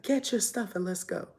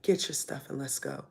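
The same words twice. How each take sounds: First: Higher, sharper command from father; stern order. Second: Said in the usual way. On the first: Retold or imitated. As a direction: order her out, firmly. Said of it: "and he's like". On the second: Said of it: "He's like".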